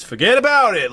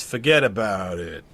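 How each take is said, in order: First: Irish mobster with inflection swooping up high and loud; loud, high-pitched attempt at an Irish accent. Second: Italian mobster, drawn out with a downward motion; slow Italian-American wiseguy accent. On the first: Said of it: "With, with Irish". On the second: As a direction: do an Italian mobster, inflection going down. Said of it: "instead of going in Italian". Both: Shown as a demonstration.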